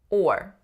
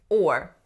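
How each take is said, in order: The two takes are said the same way.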